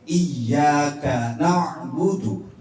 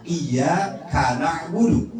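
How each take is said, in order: First: Iya kana budu as iyyaka, then na'budu; slow, doubled y, break after ka; correct reading. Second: Iya kana budu as iya, then kana'budu; wrong word break. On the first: Teacher contrasts two readings for mothers, correct reading. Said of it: "Beda nih". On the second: Teacher contrasts two readings for mothers, wrong word break. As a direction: break after iya, ka runs into na. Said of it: "kafnya tidak dijeda". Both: Shown as a demonstration.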